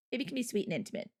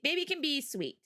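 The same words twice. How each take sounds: First: Softer, quicker, tender sweet-talk; soft intimate. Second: Said in the usual way. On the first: Shown as a demonstration. Explaining pet names to chat, softly sweet and intimate. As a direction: coo it like a pet name.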